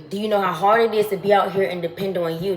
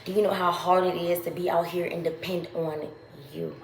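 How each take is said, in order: First: Louder, pressing the question; louder, pointed repeat; emphatic repeat. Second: Said in the usual way. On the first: Real, not acted. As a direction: push the question home to them.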